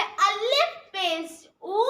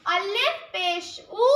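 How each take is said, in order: First: अलिफ पेश ऊ drawn out, ऊ held; अलिफ पेश ऊ recited slowly; slow demo. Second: अलिफ पेश ऊ repeated slowly, ऊ rising; अलिफ पेश ऊ slow classroom recitation. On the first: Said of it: "पेश का प्रोनाउंसिएशन ऊ होता है". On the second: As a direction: drill अलिफ पेश ऊ back. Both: Shown as a demonstration.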